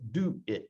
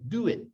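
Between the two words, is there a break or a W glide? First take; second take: break; W glide. First: The words are separated by a short stop. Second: The words are joined by a W sound. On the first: The speaker calls it wrong. "Try to stop between them first" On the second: The speaker calls it right. "Very naturally, the W sound comes in there"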